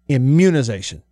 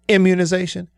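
First: The stress is on the second syllable. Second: The stress is on the first syllable. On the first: "or do we put it on the mun" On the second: "Do we put the emphasis on the M in immunization"

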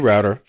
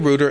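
First: Router is said with the US pronunciation. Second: Router is said with the UK pronunciation. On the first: "you can say router" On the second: "I'm going to say router"

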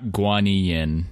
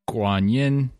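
First: The name is said with an anglicized pronunciation. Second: The name is said with a Chinese pronunciation. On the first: This is how the singer says the name. The speaker calls it wrong. "and not Guanyin" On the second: This is the name as said in Chinese. The speaker calls it right. "the Chinese name is Guanyin"

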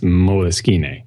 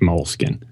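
First: Its ending does not sound like 'skin'. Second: It sounds like 'mole' plus 'skin'. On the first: The speaker calls it right. "it's moleskine" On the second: The speaker calls it wrong. "not moleskin"

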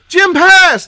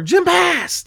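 First: It is said in a happy, excited tone. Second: It is said in a sad, somber tone. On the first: Jim passed his proficiency test. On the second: Jim has died.

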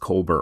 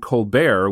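First: The name ends with a plain 'ber' sound. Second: The name ends with a French-like 'bear' sound. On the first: The speaker calls it right. "But now I've been told it's Kolber" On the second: The speaker calls it wrong. "which might make people think of Stephen Colbert"

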